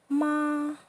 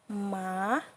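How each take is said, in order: First: The pitch stays high and flat. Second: The pitch dips down and then rises. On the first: It means mother. "Keep your voice flat and even" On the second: It means horse. "falling rising tone"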